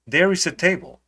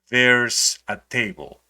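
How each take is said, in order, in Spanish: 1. There e is se dicen como dos palabras completas. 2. There e is se unen en una sola sílaba. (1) "For example" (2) "vamos a transformarlo en lo siguiente"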